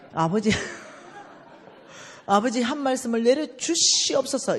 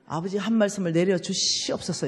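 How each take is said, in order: First: Loud, higher pleading call to God; begging God aloud for a word; fervent prayer cry. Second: Said in the usual way. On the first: Retold or imitated. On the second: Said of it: "이런 거".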